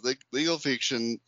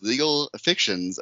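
First: "legal fiction" said oddly, first vowel of "fiction" off; weird mispronunciation. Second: Said in the usual way. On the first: Real, not acted. Host reading her argument, "legal fiction" slipping out weird. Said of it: "how did I say that? Was so weird". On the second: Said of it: "how did I say that".

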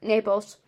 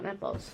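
First: Said in the usual way. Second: "Naples" with a short e, like "neples"; mispronounced Naples. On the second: Shown as a demonstration. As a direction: say "Naples" with the vowel of "net". Repeats the mistaken pronunciation, rejected.

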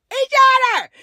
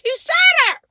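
First: Shouted again. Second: Shouted insistence. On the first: Repeated shouted insistence. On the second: Insisting he shot her. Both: Real, not acted.

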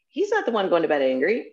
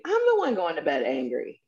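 First: "not" pushed up and held in "he's not the one"; contrast: "not" carries the weight; stress on not. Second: "I'm" leaned on to claim the blame; stress on I'm. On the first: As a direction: lean on "not" to deny it's him. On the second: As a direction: own it: hit "I'm". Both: Shown as a demonstration.

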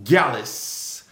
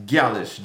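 First: Gyalis said as KAH-less, stress on first syllable; Jamaican pronunciation. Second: Gyalis with hard g, GAH-lis, falling; Jamaican pronunciation. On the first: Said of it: "today's Jamaican word of the week is". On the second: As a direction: give Gyalis as GAH-lis, first syllable stressed. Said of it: "A L I S". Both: Shown as a demonstration.

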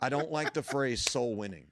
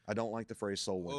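First: "I don't like the phrase soul winning" said higher and louder, leaning hard on "the" and "soul winning"; emphatic statement. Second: Said in the usual way. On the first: Shown as a demonstration. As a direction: declare "I don't like the phrase soul winning" firmly, raised and loud.

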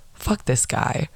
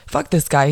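First: Soft, whispered retelling; hushed dismissal. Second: Said in the usual way. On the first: Retold or imitated. Friends slipping away from the cop, hushed dismissal. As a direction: say it under your breath.

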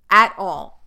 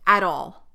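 First: At all, said much louder and firmer; a sudden loud burst on "At all."; emphatic louder repeat. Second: Said in the usual way. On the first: Real, not acted.

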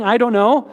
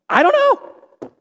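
First: Said in the usual way. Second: Very high, slow, mock-helpless "I don't know"; squeaky comic "I don't know". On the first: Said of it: "me saying". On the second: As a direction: squeak it out like a baffled shrug. Comic refrain answering hard questions.

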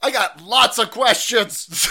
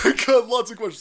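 First: High, loud, slow mocking voice; mock reporter. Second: Laughing. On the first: Mocking the reporter with prepared questions, high loud slow taunt. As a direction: sneer it like a nagging reporter. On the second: Retold or imitated. Repeat while laughing.

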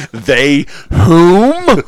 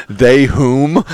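First: Very high, loud haughty question; mock posh again. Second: High, loud mock haughty question; mock posh query. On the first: Host repeats the mock posh question higher. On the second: Host mocks cohost's odd grammar in a high posh voice.

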